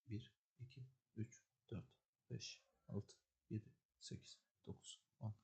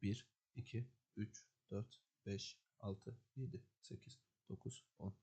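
First: The counting is spoken at very low volume. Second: The counting is spoken at normal volume.

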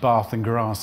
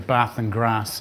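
First: It is said in a southern English accent. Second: It is said in a northern English accent. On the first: The speaker calls it wrong. "instead of saying things like bath and grass" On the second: The speaker calls it right. "I can pronounce things properly. I can say bath and grass"

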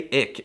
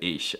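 First: It is said the northern German way. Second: It is said with the standard ch sound. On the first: "All the cool people in the north half of Germany say ich" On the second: "instead of ich"

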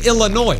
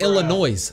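First: The final S sound is silent. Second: The final S sound is pronounced. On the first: The speaker calls it right. "You don't say the S. You say Illinois" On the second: The speaker calls it wrong. "She can't even say Illinois right. She said Illinois. You don't say the S"

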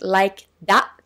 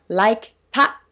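First: The word after like starts with a d sound. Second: The word after like starts with a t sound. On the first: The speaker personally says it this way. "私は個人的にlike だと発音します" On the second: Other people say it this way. "二人の学生さんはlike たと発音していますが"

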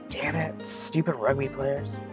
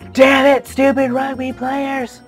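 First: It is mumbled quietly under the breath. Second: It is yelled out loudly. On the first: "He mumbles under his breath" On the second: "I repeat his words with a yell"

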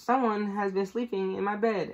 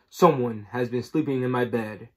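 First: The voice is small and high. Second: The voice is big and deep. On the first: "cried in his wee little voice" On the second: "said in his great big voice"

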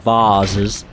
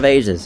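First: The word has a fussier, more refined pronunciation. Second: The word has an ordinary, everyday pronunciation.

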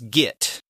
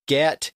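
First: The vowel is the I of git. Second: The vowel is the E of get. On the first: "it was git, G-I-T" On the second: "Instead of get"

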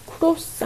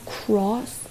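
First: The vowel is a rounded Korean-style o. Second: The vowel is open, with the jaw dropped. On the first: The speaker calls it wrong. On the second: The speaker calls it right.

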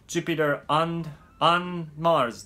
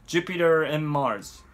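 First: The word 'and' is said fully with its d. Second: The word 'and' is reduced, with no d. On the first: The speaker calls it wrong. "というふうにならないように" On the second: The speaker calls it right. "AND のD がまたここでは省略されて"

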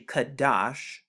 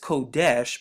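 First: The vowels are 'a' then 'a'. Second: The vowels are 'o' then 'e'. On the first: This is the original pronunciation. The speaker calls it right. "it's actually Kadash" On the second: This is how others commonly say it. The speaker calls it wrong. "they pronounce it as Kodesh"

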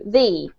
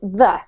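First: Said with the strong form used before vowels. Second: Said with the weak form used before consonants. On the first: "But if it comes before a vowel, we change the pronunciation to the" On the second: "if it comes before a consonant word such as fashion, and we pronounce it the"

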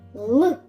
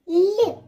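First: The consonant is hard, not palatalized. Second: The consonant is soft, palatalized. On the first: "Я скажу твердо" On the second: "пом'якше скажу"

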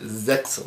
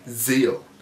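First: The X sound is pronounced in the name. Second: The X sound is left out of the name. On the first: The speaker calls it wrong. "people was calling it Zexal" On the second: The speaker calls it right. "The X is silent"

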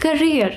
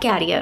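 First: The word sounds like 'ca-reer', with the stress on the last syllable. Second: The word sounds like 'carrier', with the stress on the first syllable. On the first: The speaker calls it right. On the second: The speaker calls it wrong. "not carrier"

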